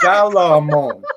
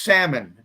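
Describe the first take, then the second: First: The L is pronounced, with an extra vowel. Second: The L is silent, with no extra vowel. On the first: This is how it is said in the other country. "she reads it exactly as it's spelled" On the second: This is how it is said in this country. "here it's salmon. The L is silent"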